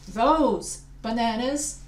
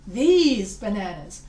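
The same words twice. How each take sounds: First: "those" drawn out slowly; slow, lingering "those"; stress on THOSE. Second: "these" swooped up and drawn out; slow, punched "these"; stress on THESE. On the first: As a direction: stretch "those" as if pointing. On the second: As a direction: stretch "these" slowly with emphasis. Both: Shown as a demonstration. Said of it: "if I wanna say".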